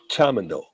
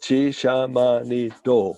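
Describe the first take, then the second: First: Many vowels are dropped, giving a short word. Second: Every vowel is kept, giving a long word. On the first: This is how it comes out in fast speech. "we say this by shortening a lot of the vowels" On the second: This is the full form of the word. "is chishamanito"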